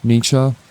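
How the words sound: The name is said the non-American way. This is the generally accepted form. "that's not entirely the pronunciation of his name, Nietzsche, that Americans use"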